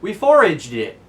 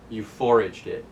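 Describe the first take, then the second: First: Louder, higher boast on foraged; proud answer. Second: Said in the usual way. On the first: Retold or imitated. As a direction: announce it proudly. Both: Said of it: "And Vivi says".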